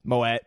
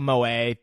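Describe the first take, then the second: First: "Moet" said as moh-ET; "Moet" ending in a short "et"; unsure pronunciation. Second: "Moet" said as moh-AY, silent t; "Moet" with no final t sound; unsure pronunciation. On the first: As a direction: say "Moet" with the t sounded. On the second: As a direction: say "Moet" French-style, ending in "ay". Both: Real, not acted. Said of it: "Is that how you say it?".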